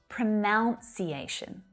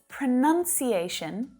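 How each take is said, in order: First: The second syllable has an 'ow' vowel. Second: The second syllable has an 'uh' vowel. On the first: The speaker calls it wrong. "not pronunciation" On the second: The speaker calls it right. "So it's pronunciation"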